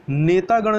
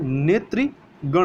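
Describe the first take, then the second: First: नेतागण with "taa" in the middle; wrong form. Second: नेत्रीगण with "tri" in the middle; correct form. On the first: Teacher rejects the error, नेतागण with long aa. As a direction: say नेतागण as "netaa-gan". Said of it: "नेतागण नहीं होता है". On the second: Teacher corrects for learners, नेत्रीगण with "tri". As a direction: say नेत्रीगण slowly as "netri-gan". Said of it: "नेत्रीगण होता है". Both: Shown as a demonstration.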